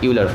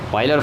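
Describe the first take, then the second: First: The name begins with a 'yoo' sound. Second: The name begins with an 'oy' sound.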